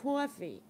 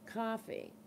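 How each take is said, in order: First: It is said with a New York accent. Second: It is said with a Boston accent. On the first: "Now it's coffee. ... You from New York now?" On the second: "It used to be"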